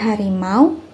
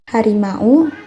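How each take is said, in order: First: The final au glides into one syllable. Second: The final a and u are separate syllables. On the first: The speaker calls it right. "Kata au sendiri dibaca menjadi bunyi w" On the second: The speaker calls it wrong. "Tidak dibaca"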